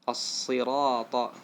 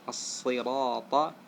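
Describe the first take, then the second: The two takes are said the same way.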